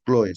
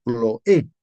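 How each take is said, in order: First: Chloe said with the stress on the o, the wrong way. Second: Chloe said slowly with the stress on the final e, rising. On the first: Pastor shows the congregation the wrong Chloe, stress on the o. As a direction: stress the o in Chloe, as the mistaken take. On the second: Pastor corrects Chloe to the congregation, slow, final e stressed. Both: Shown as a demonstration. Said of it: "con tilde en la E".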